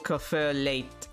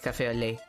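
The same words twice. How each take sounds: First: The final T of 'lait' is pronounced. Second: The final T of 'lait' is silent. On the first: The speaker calls it wrong. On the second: The speaker calls it right.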